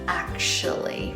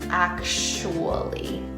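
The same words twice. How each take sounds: First: Both the t and oo sounds are dropped. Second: The t sound is dropped, w kept. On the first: "almost the same as the second one, but without the T sound" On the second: "you take out the T sound"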